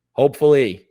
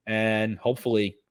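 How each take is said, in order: First: "hopefully" said much louder, with a hard falling push; emphatic hopefully. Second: Said in the usual way. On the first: Real, not acted. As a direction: lean hard into "hopefully" as a real wish.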